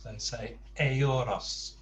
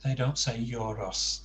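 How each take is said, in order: First: Euros as Spanish eh-OO-ros, slow. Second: Euros as English YOUR-ohs. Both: Shown as a demonstration.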